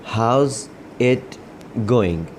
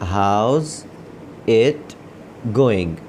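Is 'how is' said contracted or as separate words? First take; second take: contracted; contracted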